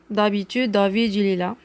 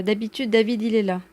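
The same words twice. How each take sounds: First: "D'habitude, David" with the D sounds heavy and emphatic; thick emphatic D on "David"; exaggerated emphatic D. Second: Said in the usual way. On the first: Shown as a demonstration. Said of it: "j'ai exagéré". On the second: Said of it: "Idem, normalement".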